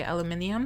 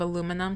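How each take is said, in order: First: "aluminium" as al-you-MIN-ee-um; five-syllable British "aluminium". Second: Said in the usual way. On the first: Retold or imitated. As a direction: mimic an English mom saying "aluminium". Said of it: "she'll say aluminium". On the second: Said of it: "my mom will say, like, instead of".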